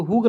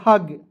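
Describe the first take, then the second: First: हुग with a u vowel, "hug" like "hoog"; हुग as the mistaken reading; wrong pronunciation. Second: हग with a short a, "hag"; हग as the right reading; correct pronunciation. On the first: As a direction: say हुग rounding the u. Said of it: "हुग नहीं पढ़ेंगे". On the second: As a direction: say हग with an open short a. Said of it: "इसे पढ़ेंगे हग". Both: Shown as a demonstration.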